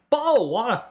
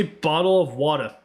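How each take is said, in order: First: Higher British "Bottle of water" with the t in "Bottle" dropped; exaggerated British attempt. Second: Careful British "bottle of water" with the t's sounded; British attempt. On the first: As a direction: swallow the t of "Bottle", British style. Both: Shown as a demonstration. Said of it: "It came out totally wrong".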